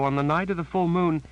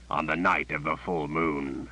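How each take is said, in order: First: High, shaken woman's voice; higher pitched fearful woman; frightened Janet. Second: The dark possessor savoring the news; gruff, sinister voice. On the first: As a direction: say it as the scared sister, plain fear. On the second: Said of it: "suddenly gruff, suddenly sinister voice". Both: A narrator's reading.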